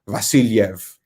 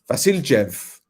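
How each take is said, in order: First: The j is said like English y. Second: The j is said like English j. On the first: The speaker calls it right. "It's like a Y" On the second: The speaker calls it wrong. "did I pronounce it with a Jev?"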